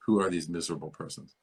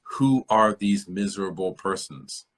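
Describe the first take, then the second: First: Brisk, offhand repeat of the line; quick goblin king repeat. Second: Slow, deliberate goblin king demand. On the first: Repeating the goblin king's line to students, quick and light. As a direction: toss it off fast, a lighter run-through. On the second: Reading the goblin king's greeting to the dwarves, slow and weighty. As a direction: drag it out like a scornful goblin king. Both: Retold or imitated. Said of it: "And he says".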